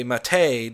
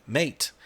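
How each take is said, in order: First: Mate as "mah-TAY"; mate pronounced in two syllables, ending "tay". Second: Mate as "mayt", rhyming with late; mate like the English word for friend; one-syllable mate. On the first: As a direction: stress the end of mate, "muh-TAY". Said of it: "because I say mate". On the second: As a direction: say mate with a silent E. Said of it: "you're wrong for saying mate". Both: Shown as a demonstration.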